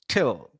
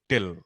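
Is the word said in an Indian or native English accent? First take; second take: native English; Indian. First: The word is said with a native English accent. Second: The word is said with an Indian accent. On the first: The speaker calls it right. "They all say this as t" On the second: The speaker calls it wrong. "even we all say till"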